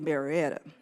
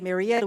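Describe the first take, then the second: First: It uses the local Atlanta pronunciation. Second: It uses the non-local, outsider pronunciation. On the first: This is how Atlanta natives say it. The speaker calls it right. "we say Marietta" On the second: This is how people not from Atlanta say it. The speaker calls it wrong. "here in Atlanta, we don't say Marietta"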